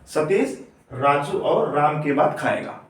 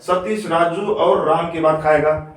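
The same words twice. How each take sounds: First: There is a pause after the first name. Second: The name runs straight on without a pause. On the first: One person eats after the other two. The speaker calls it right. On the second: The sentence makes no sense. The speaker calls it wrong.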